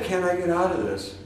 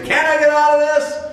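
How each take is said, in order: First: Soft, resigned asking; quiet plea. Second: High, loud exasperated cry to the sky; mock yell. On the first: Retold or imitated. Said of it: "And so I've said". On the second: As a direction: throw it up high like a tantrum. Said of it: "scream and yell and say".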